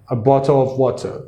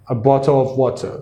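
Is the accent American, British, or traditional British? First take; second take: British; British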